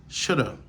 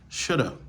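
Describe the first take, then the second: No difference in how they are said.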